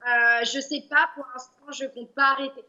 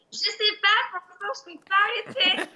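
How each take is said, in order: First: Said in the usual way. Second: Higher, laughing elf voice. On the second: Pretend. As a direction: squeak it out through a giggle. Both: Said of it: "Bien rattrapé".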